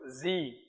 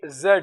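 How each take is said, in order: First: The letter is said the American way. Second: The letter is said the British way.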